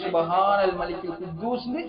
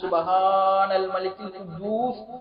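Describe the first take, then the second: First: It is said at a normal length and volume. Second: It is drawn out and said loudly.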